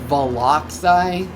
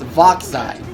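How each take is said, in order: First: The name is said with three syllables. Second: The name is said with two syllables. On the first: The speaker calls it wrong. "Are you pronouncing it Voloxai?" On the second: The speaker calls it right. "It's Voxai"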